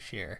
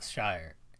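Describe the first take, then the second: First: The vowel sounds like 'air'. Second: The vowel sounds like 'fire'. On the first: The speaker calls it right. "Share is usually what I've heard" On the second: The speaker calls it wrong. "not Shire"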